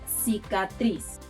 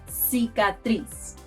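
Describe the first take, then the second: The two takes are said the same way.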